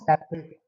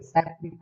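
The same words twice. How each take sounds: First: The last syllable sounds like 'ate'. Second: The last syllable sounds like 'it'. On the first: It is used as a verb. The speaker calls it wrong. "Not" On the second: It is used as an adjective. The speaker calls it right. "तो आप लोग सेपरेट पढ़ेंगे"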